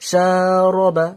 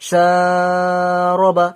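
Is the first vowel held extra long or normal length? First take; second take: normal; extra long. First: The first vowel is held for normal length. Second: The first vowel is stretched out very long. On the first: The speaker calls it right. "এতটা টান দেবেন" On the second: The speaker calls it wrong. "এত বেশি টান দেবেন না"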